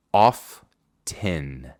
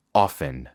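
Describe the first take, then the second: First: Often with a clear T, drawn out; often with the T sounded; T pronounced. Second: Often as ofen, T barely heard; soft T. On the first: Teacher shows form two with T. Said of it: "Forma dos". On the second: Teacher shows form one without T. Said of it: "forma uno". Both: Shown as a demonstration.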